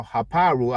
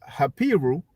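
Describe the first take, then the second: First: "Haparu" with an open AH in the middle; their preferred pronunciation. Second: Said in the usual way. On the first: Shown as a demonstration. Host cites how they like it, "Haparu" as ha-PAH-roo. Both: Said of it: "as they like to pronounce it".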